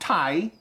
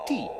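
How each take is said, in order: First: The vowel glides, sounding close to 'tie'. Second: The vowel is a pure, steady 'ee'. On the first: The speaker calls it wrong. "Not tie, mind" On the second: The speaker calls it right. "do you think you can possibly say tea?"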